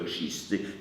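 The word begins with a 'ch' sound. This is the standard form, not the Podhale one. "nie jest to"

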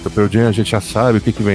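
The sentence sounds disappointed and dismissive. Knowing what to expect is a bad thing. "É a mesma frase, mas com uma entonação diferente"

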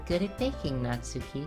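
The voice sounds only slightly robotic. "I feel like I'm almost going GLaDOS with Monika here"

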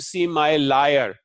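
The first vowel of lawyer sounds like 'lie'. "if someone speaks Indic languages, they will say liar"

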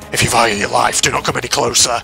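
It is said in a menacing evil-villain voice. "The evil voice which originally gave Mikan"

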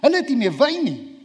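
It is said anxiously, with worry in it. It is an urgent crisis for the speaker. The speaker calls it right. "Ek dink dit nog baie angstig, dis so seker baie angstig wees"

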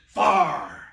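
The vowel is flattened, so it sounds like far.

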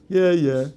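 It sounds dismissive and skeptical, meaning disagreement.

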